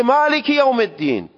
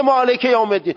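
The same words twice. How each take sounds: First: مالک with short "i" sounds, maliki yawm; Arabic kasra. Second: مالک with an open "e", maleke yawm; short Persian e ending on مالک. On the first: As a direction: say مالک یوم الدین high, as "maliki". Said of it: "اون میگه". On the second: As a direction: say مالک یوم الدین high and quick, "maleke". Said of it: "اون که نمیگه". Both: Shown as a demonstration.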